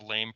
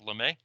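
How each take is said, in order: First: The name is said as one syllable, "lame". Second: The name is said as two syllables, "le-may". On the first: The speaker calls it wrong. "not the lame parameter" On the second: The speaker calls it right. "the Lemay"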